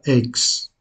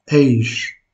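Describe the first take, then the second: First: The prefix ends with a 'ks' sound. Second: The prefix ends with a 'sh' sound. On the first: The speaker calls it wrong. "et non pas ex" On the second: The speaker calls it right. "celui-ci se prononce eish"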